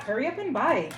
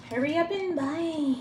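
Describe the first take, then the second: First: Said in the usual way. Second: Higher, slow, drawn-out playful plug; lilting slow mock-ad pitch; teasing sales pitch. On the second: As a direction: stretch it out like a cheeky jingle.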